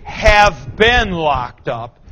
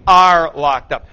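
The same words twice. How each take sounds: First: Said in the usual way. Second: Are said louder, hit hard; stress on are. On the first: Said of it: "don't say". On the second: Shown as a demonstration. Teacher drilling the right tense, stressing are. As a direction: lean on the word are, firmly.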